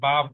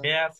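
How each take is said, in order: First: The syllable has a plain 'a' vowel, no glide. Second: The syllable has a 'ya' glide before the vowel. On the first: The speaker calls it wrong. "এটা অনেকে বা বলে ফেলে" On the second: The speaker calls it right. "বয় জফলা আকার যে ব্যা sound আসে"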